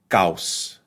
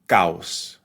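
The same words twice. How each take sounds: The two takes are said the same way.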